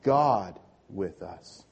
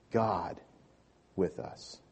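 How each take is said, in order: First: God said slowly and heavily, all together; slow group recital with weight on God; stress on God. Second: God said slow and weighty, pause before with us; God carried as the key word; stress on God. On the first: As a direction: give God the weight, chant it slowly with the room. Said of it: "Emphasis on God. Let's say that together". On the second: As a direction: lean hard on God then let with us fall. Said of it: "Emphasis on God". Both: Shown as a demonstration.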